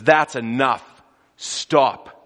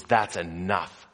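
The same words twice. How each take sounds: First: A loud, stern command to the storm. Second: Calm command. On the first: Jesus commanding the storm to stop, loud. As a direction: order the storm to stop, full voice. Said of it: "and he says". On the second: Jesus muzzling the storm with calm authority. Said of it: "with the commanding authority". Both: Acted.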